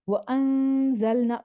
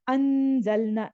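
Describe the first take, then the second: First: The n sound is softly hidden with a hold. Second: The n sound is pronounced fully and clearly. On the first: The speaker calls it right. "थोड़ा-सा रुक के और फिर आपने पढ़ना है" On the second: The speaker calls it wrong. "बहुत क्लियर हमने नहीं निकालना, अंज़लना ऐसे नहीं"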